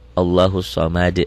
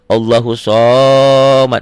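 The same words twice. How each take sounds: First: The vowel is kept short. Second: The vowel is drawn out long. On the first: The speaker calls it right. "harusnya pendek" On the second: The speaker calls it wrong. "Jadi jangan"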